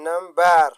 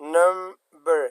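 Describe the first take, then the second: First: The stress is on the second syllable. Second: The stress is on the first syllable. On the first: The speaker calls it wrong. "د بار یعنی نمبر دا غلط راځي" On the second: The speaker calls it right. "دا اوله توري دوستانو دا فشار هم ورکول کیږي"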